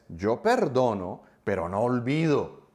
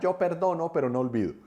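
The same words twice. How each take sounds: First: It is said intensely, with a resentful tone. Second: It is said lightly, with a laughing tone. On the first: The speaker is holding on and wants revenge. The speaker calls it right. "lo dice desde sus entrañas" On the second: The grudge is held lightly, without resentment. The speaker calls it wrong. "Nadie la dice como, jajaja, ja, ja"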